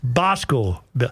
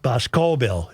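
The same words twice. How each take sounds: First: The stress is on the first syllable. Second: The stress is on a later syllable. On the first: The speaker calls it right. "Emphasis on the first syllable" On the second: The speaker calls it wrong. "Not Boscobel"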